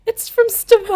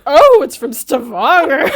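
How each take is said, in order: First: Laughing quote. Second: Slow, dry echo, laughing under it; deadpan his flat reply while cracking up; a hint of a bored barman, laughed through; mock unimpressed barman. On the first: Retold or imitated. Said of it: "and I'm like". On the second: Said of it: "and then he goes like".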